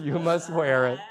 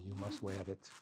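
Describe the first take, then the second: First: Louder, laughing repeat of the plea; laughing insistence. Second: Soft, earnest grandma plea; quiet insistence. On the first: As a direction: laugh it out as you insist again. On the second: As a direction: say it softly, insisting gently. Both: Retold or imitated.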